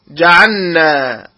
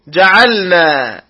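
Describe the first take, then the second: First: The l merges into the following n. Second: The l is pronounced clearly before the n. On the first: The speaker calls it wrong. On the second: The speaker calls it right.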